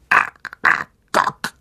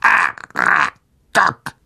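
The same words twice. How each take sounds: First: Slow, unvoiced clicking spider call; drawn-out, breathy creature cry. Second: Low, very slow spider voice with a rise; spider calling. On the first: Spider calls for its master, slow creature voice. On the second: Spider summons Aragog, low slow creature call. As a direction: stretch the name out deep and eerie. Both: A narrator's reading. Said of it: "rief sie".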